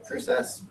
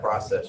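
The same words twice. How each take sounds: First: Quiet Canadian "process" with a long O; imitated Canadian vowel; Canadian accent. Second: Said in the usual way. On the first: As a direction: mimic a Canadian saying process. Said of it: "You'd be like". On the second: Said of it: "Ask Miss Smith about the process".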